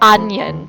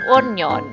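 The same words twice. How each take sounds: First: The word is said with a standard English accent. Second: The word is said with a Filipino accent. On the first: This is the pronunciation of the day. "Pero we call it uh, onion" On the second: This is how Filipinos commonly say it. "Sa Filipinos, they say onion"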